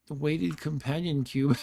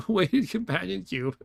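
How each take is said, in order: First: Said in the usual way. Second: Laughing repeat. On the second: Real, not acted.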